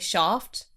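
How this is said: It is said in a British accent.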